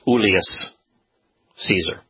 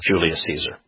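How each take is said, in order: First: The name begins with a soft Y sound. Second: The name begins with a hard J sound. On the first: This is the original Latin pronunciation. The speaker calls it right. "Like it's Julius Caesar" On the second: This is the later altered pronunciation. The speaker calls it wrong. "not Julius Caesar"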